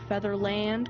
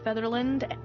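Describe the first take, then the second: First: The final syllable 'land' is fully pronounced. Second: The final syllable is weak and reduced.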